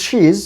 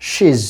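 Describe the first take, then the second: First: She's with a long ee, "sheez"; long vowel. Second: She's with a short i, "shiz"; short vowel. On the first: Teacher says this pronunciation is correct, long vowel. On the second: Teacher says this is also correct, short vowel. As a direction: clip she's to a brief vowel. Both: Shown as a demonstration. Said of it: "long sound and short sound".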